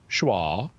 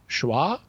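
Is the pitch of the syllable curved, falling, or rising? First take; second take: falling; rising. First: The pitch falls across the syllable. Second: The pitch rises across the syllable. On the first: "if you use a descending pitch like schwa" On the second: "if you raise the pitch of your voice as you say a syllable"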